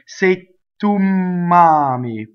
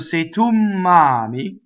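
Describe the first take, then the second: First: Both the T and the M sound are lengthened. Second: Only the M sound is lengthened. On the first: The speaker calls it wrong. "You cannot say say tu mami with both doubles" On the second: The speaker calls it right. "double M"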